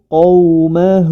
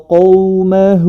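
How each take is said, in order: Both takes have the same delivery.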